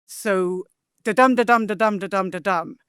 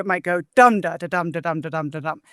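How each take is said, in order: First: Chanted, "da-dum" repeated, each dum stressed, slowed and steady; chanted, tap out the iambic beat, fading at the end. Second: "dum da da dum", first syllable stressed, then iambs; inverted first foot. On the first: Scholar chanting iambic meter for listeners, slowed and rhythmic. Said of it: "an iamb in English is". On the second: Scholar demonstrating an inverted first foot, rhythmic chant. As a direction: chant the line starting on the strong beat. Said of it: "you invert the first foot". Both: Shown as a demonstration.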